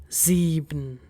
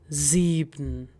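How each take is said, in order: The two takes are said the same way.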